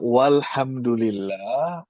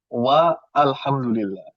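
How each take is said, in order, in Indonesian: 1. Alif pada al dihilangkan dan disambung. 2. Alif pada al diucapkan terpisah.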